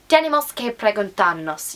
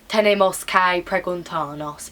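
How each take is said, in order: First: The phrase is said with clear syllable stress. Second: The phrase is said flat, without clear stress. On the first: The speaker calls it right. "Learn how to stress, ... you need to be able to stress" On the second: The speaker calls it wrong. "When you say it like this, ... you sound stupid to the examiner"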